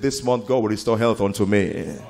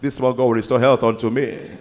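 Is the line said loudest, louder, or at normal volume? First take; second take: normal; loudest. First: It is said at a normal volume. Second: It is screamed at the loudest volume. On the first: "Now personalize it" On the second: "Scream it the loudest"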